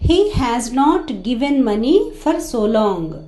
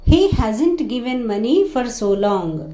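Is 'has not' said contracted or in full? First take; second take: full; contracted. First: Has not is said as two full words. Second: Has not is contracted into one word. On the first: "has not" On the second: "hasn't అని pronounce చేస్తున్నాం"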